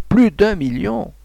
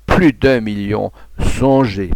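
First: Plus d'un million again, slow and much higher; higher slow cry. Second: Plus d'un million, slow and louder, weighing each word; slow cry. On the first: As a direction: climb up in triumph. (crié lentement, bien plus aigu) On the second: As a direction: drag it out, a bit louder. (crié lentement, plus fort) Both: A narrator's reading. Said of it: "Il criait".

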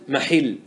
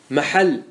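First: محل said "mahill", with an i; kasra form. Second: محل said "mahall", with an a; fatha form. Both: Shown as a demonstration. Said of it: "يجوز فيه الوجهان".

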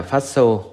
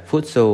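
First: "phát xô" with an open "a" in the first syllable; right-vowel phát xô; correct pronunciation. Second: PHUTSO with an "u" in the first syllable; wrong-vowel Phutso; mispronounced. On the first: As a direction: say "phát xô", first syllable "phát" rather than "phut". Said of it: "người ấy biết nó là". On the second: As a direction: say "Phutso", the faulty form with "phut" for "phát". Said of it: "mà nói sai là". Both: Shown as a demonstration.

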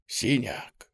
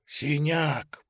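First: Hushed, whispered name. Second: A second whisper, pitch rising. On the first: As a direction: breathe it out softly. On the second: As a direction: whisper it again, a little higher. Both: Acted. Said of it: "пронёсся шёпот".

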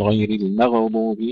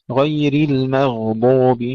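First: المغضوب as "maghadub", echo after غ; bounced ghayn. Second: Slow المغضوب, sound flowing through غ without bounce; flowing ghayn. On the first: Teacher showing what to avoid, bounced ghayn in المغضوب. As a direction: break the ghayn of المغضوب with qalqalah. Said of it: "ليس فيها قلقلة، لا نقول". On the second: Teacher modelling recitation, slow unbounced ghayn in المغضوب. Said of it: "فيها الرخاوة". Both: Shown as a demonstration.

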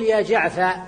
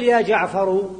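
First: يا جعفر cut to ya jaʕfa, the ra dropped and the fa kept open; يا جعفر trimmed to jaʕfa with open a; truncated, fatha kept. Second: يا جعفر with the final ra voiced with u, jaʕfaru; يا جعفر said in full with final damma. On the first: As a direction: drop the last letter of يا جعفر and hold the a, ya jaʕfa. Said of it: "لكنك الآن ستقول". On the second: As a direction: end يا جعفر on a clear u, ya jaʕfaru. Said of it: "بالضم". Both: Shown as a demonstration.

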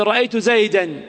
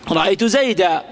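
First: زيدا ending in "-an", as "zaydan"; tanween pronounced. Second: زيدا ending in long "-aa", no n; pausal alif. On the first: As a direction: sound a final n on زيدا. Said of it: "المنون المنصوب". (نطق زيدا منونًا بنون ظاهرة) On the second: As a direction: stop on زيدا as "zaydaa". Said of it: "كيف نقف على زيد؟". (الوقف على زيدا بألف دون نون) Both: Shown as a demonstration.

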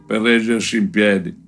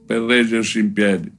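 No difference in how they are said.

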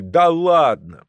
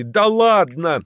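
First: High, slow drawn-out disbelief; incredulous shout. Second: High, slow yelled disbelief; yelling in unison. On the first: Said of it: "ржанием и выкриками". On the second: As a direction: howl it out together, amazed. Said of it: "в один голос завопили". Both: A narrator's reading.

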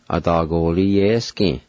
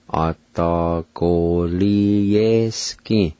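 First: Said in the usual way. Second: A da go li ye ski said very slowly, every syllable clear; slow careful pronunciation. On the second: Shown as a demonstration. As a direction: drag A da go li ye ski out for the learner. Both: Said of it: "pronounce these words".

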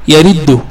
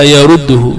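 First: يرده said as yariddu, kasra on the ra; يرده voiced yariddu, the form the teacher rejects; wrong form with kasra. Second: يرده said as yarudduhu, damma on the ra; يرده spoken yarudduhu, the accepted form, clearly; correct form with damma. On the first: Teacher showing students the wrong vowel, yariddu with kasra. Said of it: "ولا يأتي ي". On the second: Teacher giving students the right vowel, yarudduhu with damma. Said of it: "وإنما يرده". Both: Shown as a demonstration.

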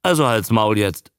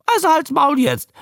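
First: Said in the usual way. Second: High squawked creature voice; high-pitched newt croak; parroting newt. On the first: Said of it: "sagte er". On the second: A narrator's reading. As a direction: mimic the order in a high newt voice. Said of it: "brummte der Molch".

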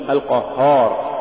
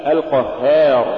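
First: القهار with a dark, back long a; heavy alif error. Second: القهار with a thin, fronted long a after H; light alif. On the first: Tajweed teacher showing what not to say, heavy alif. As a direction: thicken the haa of القهار. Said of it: "ولا تقل". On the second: Tajweed teacher giving the example to follow, light alif. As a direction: keep the haa of القهار light. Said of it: "مثال". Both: Shown as a demonstration.

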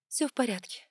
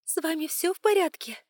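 First: Said in the usual way. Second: A hint of a concerned stewardess, higher; gently worried, slightly higher question; lightly voiced worried flight attendant. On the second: A narrator's reading. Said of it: "с тревогой заглядывает".

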